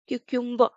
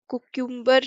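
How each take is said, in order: First: The first syllable sounds like 'kyoo'. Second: The first syllable sounds like 'koo'. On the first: The speaker calls it right. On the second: The speaker calls it wrong.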